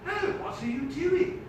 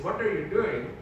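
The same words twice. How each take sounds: First: Put-on high, lilting English accent. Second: Mimicked Indian accent. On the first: Dad posing a hypothetical to the teacher, English accent. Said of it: "that English accent also turned on that teacher". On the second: Dad questioning why the teacher called him in, Indian accent. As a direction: quote it back in an Indian accent. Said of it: "she said something with an Indian accent".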